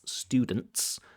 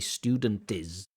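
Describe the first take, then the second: First: The t and s join as one consonant cluster. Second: An extra vowel is added before the final s. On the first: The speaker calls it right. "with a ts, ts" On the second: The speaker calls it wrong. "need to put that vowel sound in there"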